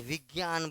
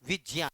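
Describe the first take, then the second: First: विज्ञान said "vig-gyaan", with a hard g; habitual VIGYAN pronunciation. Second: विज्ञान said "vij-jyaa(n)", lower in pitch; actual VIJNYAN pronunciation. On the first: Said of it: "आदत पड़ चुका है विज्ञान बोलने का". (विज्ञान का आदत वाला "विग्यान" उच्चारण) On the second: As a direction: answer with विज्ञान on a j sound, not g. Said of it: "है क्या लेकिन वो?". (विज्ञान का "विज्यान" उच्चारण) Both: Shown as a demonstration.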